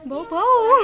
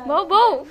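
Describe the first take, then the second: First: भौ, भौ barked with a laugh, a bit higher and louder; laughing dog bark. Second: Put-on a child copying a dog's bark, bhau bhau; dog barking imitation. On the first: Teacher asks a second child, who laughs out the bark. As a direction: giggle through the woof भौ, भौ. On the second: Asked how a dog speaks, says the bark. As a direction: say भौ, भौ as a little woof, a touch louder. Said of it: "ये तो तुम बहुत अच्छे से बोल रही हो". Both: Shown as a demonstration.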